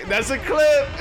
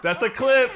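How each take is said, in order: First: Shouting it, way up high; hype shout. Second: Excited. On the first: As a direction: yell it out in hype. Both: Real, not acted. Hype over winning odds game.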